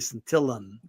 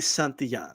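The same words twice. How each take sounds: First: The double L sounds like an English L. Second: The double L sounds like an English Y. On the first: The speaker calls it wrong. "The double L in Spanish is not pronounced like an L in English, and that, that's why people say it that way. They say Santillan" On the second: The speaker calls it right. "if you know how to say yo-yo, you could say Santillan"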